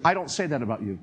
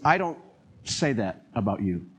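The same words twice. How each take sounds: First: Lightly lowered, gentle; gentle divine voice. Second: Gentle divine voice. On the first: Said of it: "this voice came and said". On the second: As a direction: speak like a tender, correcting God. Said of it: "a totally different voice and a different mood". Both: Retold or imitated.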